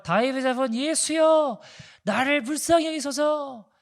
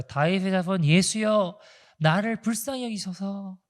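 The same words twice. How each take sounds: First: Pitched much higher, slow desperate cry; crying out louder. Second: Slow, pleading cry of a blind beggar; drawn-out plea for mercy, not yet pushed; blind man crying out. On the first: Blind man crying over the hushing crowd, higher slow desperate plea. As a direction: strain the plea up high, begging harder. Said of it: "더 크게 소리를 질러요". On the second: Blind man begging Jesus for mercy, slow pleading call. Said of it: "막 소리소리를 질러요". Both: Retold or imitated.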